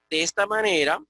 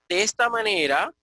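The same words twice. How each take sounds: The two takes are said the same way.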